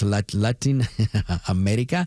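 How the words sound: It is said with Spanish sounds and rolled R. "I roll my R's or I say it correctly. ... is the right way to say it"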